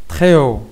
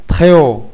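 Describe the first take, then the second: No difference in how they are said.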